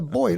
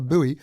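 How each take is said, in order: First: It is said as one syllable, like 'boy'. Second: It is said as two syllables, like 'boo-ee'. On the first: This is the speaker's own British pronunciation. "that's a boy" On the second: This is the American pronunciation. "not a buoy"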